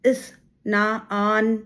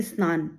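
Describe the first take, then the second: First: इस ना आन said slowly as separate drawn-out pieces; broken into pieces. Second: स्नान said as one unbroken word; in one breath. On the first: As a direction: split the word apart: इस, ना, आन. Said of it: "तोड़ के". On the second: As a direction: run स्नान together in a single stress, no break after the s. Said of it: "हम एक बार में बोलते हैं". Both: Shown as a demonstration.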